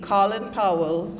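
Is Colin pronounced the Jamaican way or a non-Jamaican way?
Jamaican. Colin is pronounced the Jamaican way. This is how Jamaicans say it. "It will always be Colin Powell for us"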